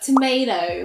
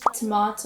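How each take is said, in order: First: It is said in an American accent. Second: It is said in a British accent. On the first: "in American, it's like tomato" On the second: "in the British accent"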